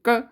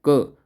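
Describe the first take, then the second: First: It is said in a thin, high voice. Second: It is said in a deep, thick voice. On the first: This imitates a woman's voice. "महिलाएं बहुत तेज़ी से क" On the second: This imitates a man's voice. "पुरुषों की आवाज़ मोटी होती है। बहुत धीरे-धीरे बोलेंगे पुरुष।"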